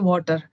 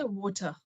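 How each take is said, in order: First: It is said in an Indian English accent. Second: It is said in a British English accent. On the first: "In India we say water" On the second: "here they say water"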